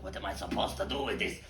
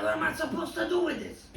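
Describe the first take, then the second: First: Said in the usual way. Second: Much higher, fast squeaky voice with a laugh; squeaky confused prostitute. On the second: Acted. Confused prostitute asking the pig, squeaky and much higher. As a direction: squeak out the question in mock confusion.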